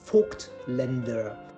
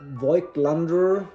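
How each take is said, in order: First: The name is said in a German way. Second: The name is said in an anglicized way. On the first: The speaker calls it right. "the word or the name is pronounced Vogtländer" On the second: The speaker calls it wrong. "Voigtlander is, is completely wrong"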